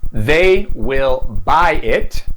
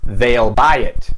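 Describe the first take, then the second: First: Will is said as a full separate word. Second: Will is shortened and joined to the pronoun.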